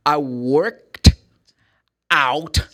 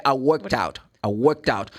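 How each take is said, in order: First: "I worked" louder, then a clear pause before "out", not linked; broken apart. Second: "worked out" run together as "workt-out" with no pause; linked smoothly. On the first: Teacher showing the wrong way, pausing before "out". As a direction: stop dead after "worked", then add "out". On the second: Teacher showing the right way, words linked without stopping. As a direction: glide the t of "worked" straight into "out". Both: Shown as a demonstration. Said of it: "Você viu que eu não parei".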